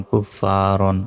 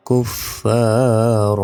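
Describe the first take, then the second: First: কুফারন with the final -an sounded; full tanween ending. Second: কুফার chanted slowly, ending on a long open vowel without n; pausal ending. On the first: Teacher reading the spelt word, কুফারন with its final n. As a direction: end কুফারন on a clear n. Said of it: "দুই জবরে থামলে একটি জবরের". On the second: Teacher showing the stopping rule, কুফার slow with open ending. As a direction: drop the n and hold the last vowel of কুফার. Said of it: "থামলে একটি জবরের উচ্চারণ হয় না". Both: Shown as a demonstration.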